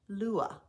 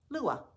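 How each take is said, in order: First: The word is said slowly. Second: The word is said more quickly. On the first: "Say it slowly after me" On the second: "Now say it a bit faster"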